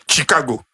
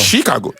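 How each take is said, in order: First: The word begins with a hard ch sound. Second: The word begins with a soft sh sound. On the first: The speaker calls it wrong. "who will say Chicago because they are wrestling she" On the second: The speaker calls it right. "It's is S H I"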